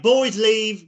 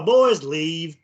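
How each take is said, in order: First: Imitated British man, a bit louder; British accent. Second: Imitated Southern accent, drawn-out vowels; deep Southern drawl. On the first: Host showing friends what the recorded voice may be, imitated British accent. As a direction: say it like a British dude. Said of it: "British dude would be hanging out". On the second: Host offering friends another reading of the recorded voice, imitated Southern drawl. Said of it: "could be a deep Southern drawl". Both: Shown as a demonstration.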